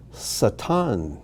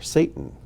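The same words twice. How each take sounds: First: Satan as sah-TAHN, stress on the end; Hebrew pronunciation. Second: Satan as SAY-tun, stress up front; English pronunciation. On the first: Teacher reads the name list aloud, Hebrew pronunciation. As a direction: say Satan with two open ah vowels. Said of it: "these are the Hebrew pronunciations". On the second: Teacher gives the familiar name after it, English pronunciation. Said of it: "or as we say". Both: Shown as a demonstration.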